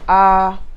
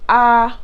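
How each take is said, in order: First: The vowel is said on a middle pitch. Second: The vowel is said on a high pitch.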